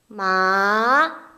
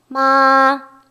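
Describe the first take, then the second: First: The pitch rises from middle to high. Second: The pitch stays high and level. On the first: "이성은 음계 미에서 솔 정도로 올려주는 거" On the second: "가장 높은 음역대"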